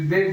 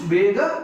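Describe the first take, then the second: First: The word ends abruptly on the final consonant. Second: The word ends with a full final vowel. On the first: The speaker calls it wrong. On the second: The speaker calls it right.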